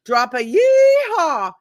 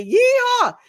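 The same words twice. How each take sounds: First: Higher, louder and slow; drawn out with a grin; excited invitation. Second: High, loud cowboy whoop; yeehaw call. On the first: Host urging viewers to comment, slow and excited. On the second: Host demonstrating her call to action for viewers, whooping. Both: Shown as a demonstration. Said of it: "I say".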